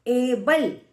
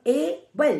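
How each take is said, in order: First: एबल said as one word, first vowel drawn out; emphasized word. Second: एबल split as ए, pause, बल; syllable by syllable. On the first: Teacher introducing a two-syllable example, emphatic joined एबल. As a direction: stretch the ए and run straight into बल in एबल. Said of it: "एबल में आप क्या बोल रहे हो". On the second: Teacher showing students two sounds, एबल broken into syllables. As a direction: break एबल into two separate raised beats. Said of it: "दो sound आ रही हैं". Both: Shown as a demonstration.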